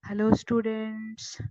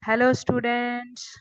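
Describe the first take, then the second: First: It is spoken softly. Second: It is spoken loudly. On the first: The sound wave has a low amplitude. "Second case ಅಲ್ಲಿ ಸಣ್ಣದಾಗಿ ಮಾತಾಡಿದ್ದೀನಿ" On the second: The sound wave has a high amplitude. "First case ಅಲ್ಲಿ ದೊಡ್ಡದಾಗಿ ಮಾತಾಡಿದ್ದೀನಿ"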